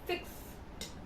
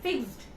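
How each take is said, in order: First: The word ends with a voiceless T sound. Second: The word ends with a voiced D sound. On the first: The speaker calls it right. "The T word is coming from your T" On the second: The speaker calls it wrong. "You will not say this full like as D"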